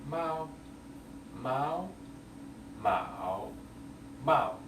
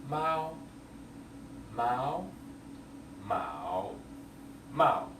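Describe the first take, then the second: Both takes have the same delivery.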